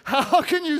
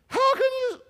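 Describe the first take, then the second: First: It is said in the speaker's normal male voice. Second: It is said in a put-on woman's voice. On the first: "Let's just stick with the man voice" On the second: "My woman voice isn't working very good"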